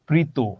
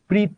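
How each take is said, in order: First: The word ends with a final 'o' vowel. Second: The word ends without a final vowel sound. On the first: The speaker calls it right. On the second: The speaker calls it wrong.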